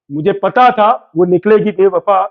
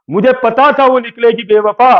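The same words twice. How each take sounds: First: Playful couplet line, repeated with a hint of suspense; shayari line, repeated. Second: Playful couplet line, first delivery; shayari line, first take. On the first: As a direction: hold the line back before the punchline. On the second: Pretend. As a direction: build it up for the punchline. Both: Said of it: "शायरी सुना दे क्या?".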